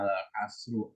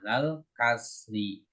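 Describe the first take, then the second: First: The last word ends with a u vowel. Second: The last word ends with an i vowel. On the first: The speaker calls it wrong. "nggak boleh dibaca alal kasru" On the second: The speaker calls it right.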